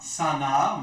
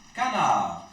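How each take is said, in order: First: The word begins with an s sound. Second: The word begins with a k sound. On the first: The speaker calls it wrong. "on ne prononce pas sanar" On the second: The speaker calls it right. "mais on le prononce canard"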